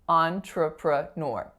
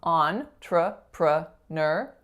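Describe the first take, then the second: First: The final syllable has a rounded 'ur' vowel. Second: The final syllable ends in a plain 'er' vowel.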